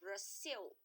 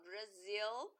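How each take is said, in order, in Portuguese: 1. A consoante do meio tem som de s. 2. A consoante do meio tem som de z. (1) "os americanos falariam Brasil" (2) "para falar Brasil, tem que ser com Z"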